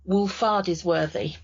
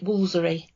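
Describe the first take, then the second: First: Every syllable of the long name is said. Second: The middle syllables are dropped, leaving two. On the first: This is how it reads from the spelling. "if you read the village's name out, it reads very clearly" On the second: This is how local people say it. "everybody local calls it"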